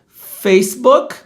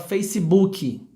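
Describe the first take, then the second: First: The word ends cleanly on the final k sound. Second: An extra ee vowel follows the final k sound.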